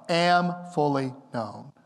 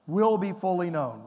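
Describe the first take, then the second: First: "am" drawn out slow and emphatic; stress on AM. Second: "Will" stressed as the wrong reading; falling on "Will be fully known". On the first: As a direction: lean hard on "am fully known". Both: Shown as a demonstration.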